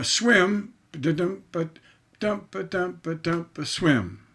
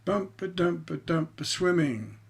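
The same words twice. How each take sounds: First: Ba-dump rhythm ending on a stressed beat; chanted ba-dump ending on Swim; masculine rhythm. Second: Ba-dump rhythm with a light unstressed ing at the end; chanted ba-dump ending on swimming with ing unstressed; feminine rhythm. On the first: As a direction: tap out the beat and land on swim. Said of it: "That's a masculine ending". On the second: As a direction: tap the beat and let ing float up. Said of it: "Hear that ing?". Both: Shown as a demonstration.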